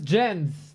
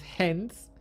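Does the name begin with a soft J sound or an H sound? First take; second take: J sound; H sound. First: The name starts with a J sound. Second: The name starts with an H sound. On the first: The speaker calls it wrong. "you pronounced him wrong" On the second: The speaker calls it right. "He's from Chile and it's Hens"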